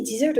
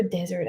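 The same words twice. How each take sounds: First: "desert" as dih-zert; "desert" sounded like "dizzert"; first pronunciation option. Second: "desert" as DEZ-ert; "desert" sounded like "dezzert"; second pronunciation option. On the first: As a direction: offer "desert" with an "ih" first vowel. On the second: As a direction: offer "desert" with an "eh" first vowel. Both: Shown as a demonstration. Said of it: "Do you say desert or desert?".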